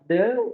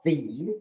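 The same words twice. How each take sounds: First: The vowel sounds like 'uh'. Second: The vowel sounds like 'ee'. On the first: The next word begins with a consonant sound. "the tetap the kalau dia bertemu bunyi mati, bunyi konsonan" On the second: The next word begins with a vowel sound. "the dibaca the ketika dia bertemu dengan bunyi vokal"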